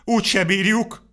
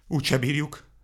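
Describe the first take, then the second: First: High, louder despairing wail; a despairing higher moan; whining lament. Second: Wailing. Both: A narrator's reading. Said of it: "sápítozott Vacska Mati".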